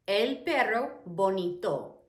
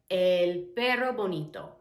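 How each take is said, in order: First: "El perro bonito" slowly, word by word; slow, carefully spaced Spanish example; slow teaching repeat. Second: Said in the usual way. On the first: Shown as a demonstration. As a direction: separate El, perro and bonito for learners.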